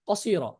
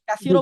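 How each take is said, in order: First: The first vowel is kept short. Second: The first vowel is drawn out long. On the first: The speaker calls it right. "সিলায়ে কসিরা বলতে হবে" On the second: The speaker calls it wrong. "কাসিরা বললে আবার বেশি হয়ে যাবে"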